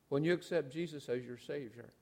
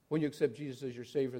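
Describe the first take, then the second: First: The phrase is said slowly and deliberately. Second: The phrase is said quickly and hurriedly. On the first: The words are considered carefully. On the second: The words are rattled off without thinking.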